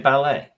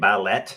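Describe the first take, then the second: First: The final T is not pronounced. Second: The final T is clearly pronounced. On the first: The speaker calls it right. "You say ballet. Why is the T silent?" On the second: The speaker calls it wrong. "Would you say ballet? No, you would not"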